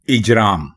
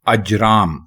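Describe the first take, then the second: First: The first vowel is a short 'i' sound. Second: The first vowel is a short 'a' sound. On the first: The speaker calls it wrong. "गलत है इजराम, ये बिल्कुल गलत है" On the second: The speaker calls it right. "अलिफ के ऊपर ज़बर लगाएंगे ... तो ये दुरुस्त होगा"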